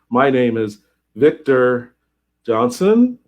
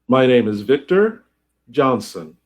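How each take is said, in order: First: The voice rises at the end. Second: The voice falls at the end.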